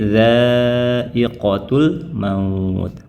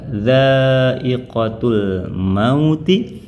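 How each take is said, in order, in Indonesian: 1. Kata terakhir berakhir dengan konsonan mati. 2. Kata terakhir berakhir dengan vokal i pendek. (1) "kalau berhenti menjadi bertemu dengan sukun" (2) "Asalnya bertemu kasroh"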